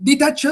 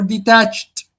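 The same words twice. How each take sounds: First: "detached" said as "DEE-tatch-ed"; three syllables. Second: "detached" as dee-TATCHT, two syllables; stress on second syllable. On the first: Teacher offers students a choice, "detached" in three syllables. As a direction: add a sounded "ed" to "detached". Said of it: "which one is the stressed one". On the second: Teacher offers the second option, "detached" stressed on TACHED. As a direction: end "detached" on one stressed chunk "tatcht". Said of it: "The stressed syllable here is the second". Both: Shown as a demonstration.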